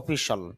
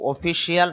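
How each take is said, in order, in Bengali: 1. শেষ অংশটি 'shal' এর মতো উচ্চারণ করা হয়। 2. শেষ অংশটি 'see-al' এর মতো উচ্চারণ করা হয়। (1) "শিয়াল না বলে আমরা শল উচ্চারণ করব" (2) "অফিসিয়াল না"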